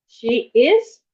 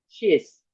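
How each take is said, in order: First: Both words are said separately in full. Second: The two words merge into one contracted syllable.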